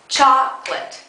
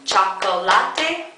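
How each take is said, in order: First: The word is said with two syllables. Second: The word is said with extra added syllables. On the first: The speaker calls it right. "only has two syllables" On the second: The speaker calls it wrong. "Do you add a lot of extra syllables in?"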